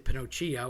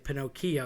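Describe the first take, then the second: First: The middle consonant is not a K sound. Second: The middle consonant is a hard K sound. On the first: The speaker calls it wrong. "you don't say Pinocchio" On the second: The speaker calls it right. "You say Pinocchio"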